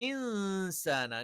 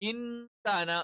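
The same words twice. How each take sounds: First: The n sound is hidden with a nasal hum. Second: The n sound is pronounced fully and clearly. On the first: The speaker calls it right. "നൂനിനൊന്ന് അങ്ങ് മറച്ചു വെച്ചിട്ട് മണിച്ചിട്ടാണ് ഉച്ചരിക്കുന്നത്" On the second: The speaker calls it wrong. "ഇൻസാന എന്ന് പറയില്ല"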